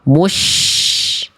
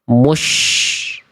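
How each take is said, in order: First: The sh is said with relaxed, unpushed lips. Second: The sh is said with strongly pushed-out lips. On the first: The speaker calls it right. "Biasa aja ya. Harusnya yang C kan?" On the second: The speaker calls it wrong. "Karena bibirnya monyong, bibirnya centil"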